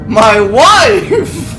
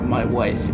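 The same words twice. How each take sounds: First: It is said in a loud, exclaimed voice. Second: It is said in a plain, flat voice. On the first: The speaker calls it right. "It's my wife!" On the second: The speaker calls it wrong. "It's not my wife"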